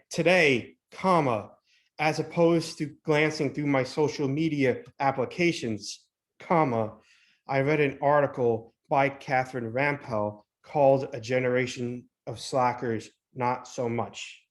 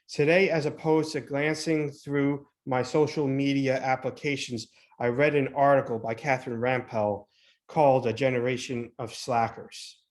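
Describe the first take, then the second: First: It is read with pauses between the phrases. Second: It is read straight through without pauses.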